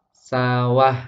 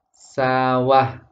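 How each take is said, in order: No difference in how they are said.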